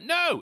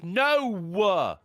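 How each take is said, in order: First: It is said as one plain syllable. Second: It has two syllables, stressed at the end. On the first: "instead of like" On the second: "they add an extra syllable ... the emphasis is the were on the end"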